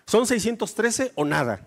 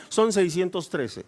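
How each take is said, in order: First: "Son" punched, "o nada" final; emphatic. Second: "son" stressed, slow and low; firm correction. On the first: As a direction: hit "Son" hard and close flat. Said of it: "Pues no". ("Son" enfático, tajante) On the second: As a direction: land "son seiscientos trece" slowly. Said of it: "si tú pensaste que eran diez". ("son" recalcado, lento) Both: Shown as a demonstration.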